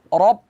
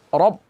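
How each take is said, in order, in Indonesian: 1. r-nya tebal dengan vokal gelap. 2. r-nya tebal dengan vokal gelap.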